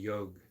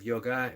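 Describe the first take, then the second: First: The word ends without the final vowel sound. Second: The word ends with a final vowel sound. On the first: "They don't pronounce the A" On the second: "instead of yoga"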